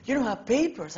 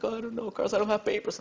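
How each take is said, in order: First: Much higher, louder, thrilled question; imitating his own giddy surprise; excited disbelief. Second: Lightly voiced tearful friend, higher pitch; a hint of a crying girl admitting her secret; Monica, tearful friend. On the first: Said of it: "Why are you so excited?". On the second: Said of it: "she's just crying her heart out".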